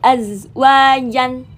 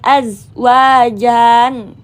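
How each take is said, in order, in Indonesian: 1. Vokal pada ja dibaca pendek. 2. Vokal pada ja dibaca panjang. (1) "tapi azwajan, pendek" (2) "bukan azwajan ya"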